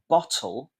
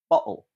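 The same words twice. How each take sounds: First: The middle consonant is a clear t sound. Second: The middle consonant is a glottal stop.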